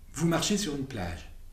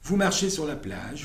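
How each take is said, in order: First: It is spoken slowly with pauses around key words. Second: It is spoken quickly without pauses around words.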